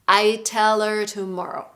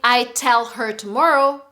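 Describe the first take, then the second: First: The words are reduced and run smoothly together. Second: Each word is pronounced fully and separately. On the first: "we try to pronounce it as if we're singing" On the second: "Instead of saying"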